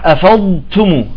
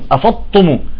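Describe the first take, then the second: First: A lengthened emphatic d precedes a lightly breathy t. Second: The middle consonants merge into one emphatic t sound. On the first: The speaker calls it right. "لا بدك تستطيل بالضاد وتخرج التاء بهمس بسيط" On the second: The speaker calls it wrong. "بطالع الضاد والتاء بطالع الطاء"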